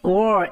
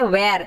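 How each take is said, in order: First: It is said in a British accent. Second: It is said in an Indian accent.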